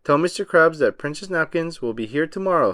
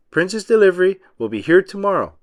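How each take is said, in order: First: Said in the usual way. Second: Louder, higher repeat; shouted back. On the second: A narrator's reading. Driver shouting the message back to SpongeBob. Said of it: "the driver shouted back".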